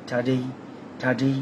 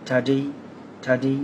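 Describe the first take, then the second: The two takes are said the same way.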